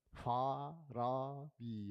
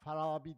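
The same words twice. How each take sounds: First: Every vowel is drawn out long. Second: The vowels are said short and clipped. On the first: The speaker calls it right. "Biraz abartayım. Hepsini çek" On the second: The speaker calls it wrong. "Sizinki bir hata bir orada"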